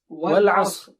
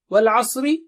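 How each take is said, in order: First: The word ends on a bare consonant. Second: The word ends with its final short vowel. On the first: The reader stops on this word. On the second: The reading continues past this word.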